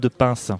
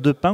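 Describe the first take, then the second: First: The name ends with an s sound. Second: The name ends without an s sound.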